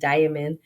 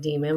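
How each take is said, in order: First: The first vowel sounds like 'eye'. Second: The first vowel sounds like 'ee'. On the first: The speaker calls it right. "It's like diamond" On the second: The speaker calls it wrong. "I always want to say like demon"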